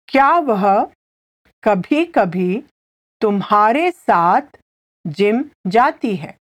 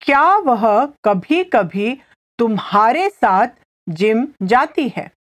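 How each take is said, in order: First: Phrase by phrase with clear pauses; slow repetition. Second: Said in the usual way. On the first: Shown as a demonstration. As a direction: break the question up so a learner can follow. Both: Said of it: "I'll say it again slowly".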